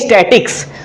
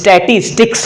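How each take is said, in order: First: The word is cut short to two syllables. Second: The word is said in full with three syllables. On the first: The speaker calls it wrong. "लोग गलत pronunciation करते हैं" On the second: The speaker calls it right. "इसका उच्चारण जो होता है वो स्टैटिस्टिक्स होता है"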